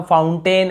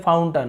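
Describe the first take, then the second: First: फाउंटेन with a long "tain"; full "ten" ending. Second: फाउंटेन ending as "tun"; short अ ending. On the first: Teacher quoting the common habit, फाउंटेन as "foun-tain". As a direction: end फाउंटेन on a clear ए vowel. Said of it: "हम फाउंटेन ऐसे बोल देते हैं". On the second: Teacher correcting the habit, फाउंटेन as "fountun". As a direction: make the last vowel of फाउंटेन a short अ. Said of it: "यहाँ पर भी अ उच्चारण हो रहा है". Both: Shown as a demonstration.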